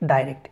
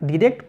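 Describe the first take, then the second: First: The first syllable is said like 'die'. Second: The first syllable is said like 'dee'. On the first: "অনেকে ডাইরেক্ট বলে" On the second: "ডিরেক্ট বা ডাইরেক্ট একই কথা"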